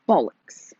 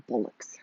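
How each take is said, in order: First: "Bollocks" with a strongly pronounced B; hard B. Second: Said in the usual way. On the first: Shown as a demonstration. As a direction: punch the B at the start of "Bollocks". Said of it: "Really pronounce the B". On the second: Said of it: "Probably say it like that".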